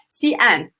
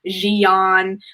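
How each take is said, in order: First: The word begins with an S-like sound. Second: The word begins with a Z sound. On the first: The speaker calls it right. "the letter X is more of a S sound" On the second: The speaker calls it wrong. "kind of mispronouncing the name as like"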